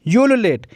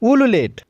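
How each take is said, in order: First: The word begins with a y sound. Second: The word begins with a plain oo vowel. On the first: "इसको हम दोनों ही तरीके से pronounce करते हैं" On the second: "इसको हम दोनों ही तरीके से प्रोनाउंस करते हैं"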